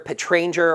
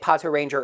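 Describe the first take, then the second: First: Pat runs straight into Ranger with no vowel. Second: An extra o vowel comes before Ranger. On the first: This is the official form of the name. "officially Pato Ranger is romanized more as like Pat Ranger" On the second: This is a habitual, easier way to say the name. "I got used to pronouncing it Pato Ranger"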